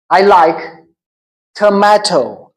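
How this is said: Tomato is said with an American pronunciation.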